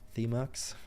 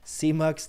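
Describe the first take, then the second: First: The first sound is a lisped th sound. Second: The first sound is a clear s sound.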